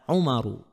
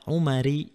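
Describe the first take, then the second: First: The name ends in a plain -u vowel. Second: The name ends in a plain -i vowel. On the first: The speaker calls it right. "contohnya ada Umaru" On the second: The speaker calls it wrong. "Tidak boleh juga dibaca Umari"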